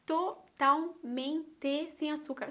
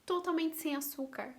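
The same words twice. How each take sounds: First: "Totalmente" broken slowly syllable by syllable; emphatic syllables. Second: Said in the usual way. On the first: Real, not acted. Stressing how unsweetened the tea was, "Totalmente" spelt out slowly. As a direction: drag out "Totalmente" one beat at a time.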